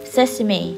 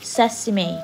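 First: The word is said with three syllables. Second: The word is said with three syllables.

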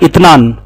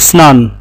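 First: The word is said with a t sound. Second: The word is said with an s sound. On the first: "अरबी लोग जो बोलते हैं ना उनका लहजा होता है इतनान" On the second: "ये दो को अरबिक में ट्रांसलेट बनता है इसका स्नान"

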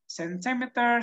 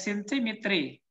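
First: The word ends with an 'er' sound. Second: The word ends with an 'ee' sound. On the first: The speaker calls it right. "they have the same pronunciation" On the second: The speaker calls it wrong. "you cannot read this like centimetry"

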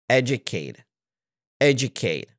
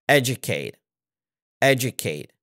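Both takes have the same delivery.

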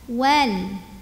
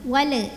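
First: The final l stops cleanly without a bounce. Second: The final l bounces with an added vowel. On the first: The speaker calls it right. "lamnya nggak boleh mantul" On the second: The speaker calls it wrong. "Jangan dipantul. ... enggak"

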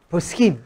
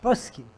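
First: It is said in a standard Israeli accent. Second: It is said in an Ashkenazi accent.

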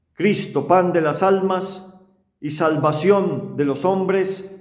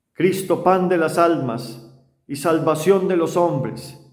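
The two takes are said the same way.

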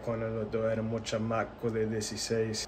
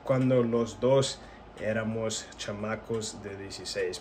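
First: Some sounds are dropped, cutting words short. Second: Every sound of the words is fully pronounced. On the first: "it's like just cut it short" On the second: "the proper way to say it would be"

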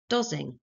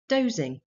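First: The o is a short vowel sound. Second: The o is a long vowel sound. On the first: The speaker calls it wrong. "the child will probably say d-o-zing" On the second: The speaker calls it right. "try an alternative vowel sound"

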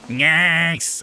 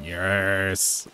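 First: A more nasal, pinched voice. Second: A gruff voice, less nasal. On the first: This imitates the original actor's version of the character voice. "his one is more like yes! ... more nasally" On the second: This is the speaker's own version of the character voice. "mine's more like that"

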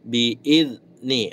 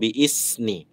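First: The middle consonant is a buzzing z sound. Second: The middle consonant is a hissing s sound. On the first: The speaker calls it right. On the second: The speaker calls it wrong.

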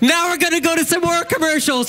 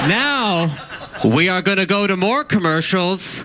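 First: It sounds upbeat, like something good is coming. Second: It sounds gloomy, like something bad is coming. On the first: The break is a welcome thing. The speaker calls it right. "sorry, let me start over" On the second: The break is an unwelcome thing. The speaker calls it wrong. "Don't say it like that, like it's a bad thing"

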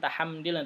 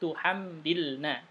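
First: The first syllable has the vowel a. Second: The first syllable has the vowel u. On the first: The speaker calls it wrong. "Bukan tahamdilna" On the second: The speaker calls it right. "harakatnya dhammah, bukan fathah"

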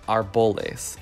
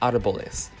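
First: The stress is on the second syllable. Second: The stress is on the first syllable. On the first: The speaker calls it wrong. "people say arboles instead of" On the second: The speaker calls it right. "just pay attention to where the accent is"

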